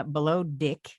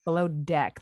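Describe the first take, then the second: First: "Below Dick" with deck said like dick; Kiwi-style Deck. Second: "Below Deck" with a plain open e in "Deck"; "Deck" said the Canadian way, clear e vowel; Canadian pronunciation. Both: Shown as a demonstration. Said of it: "That's how Canadians say it".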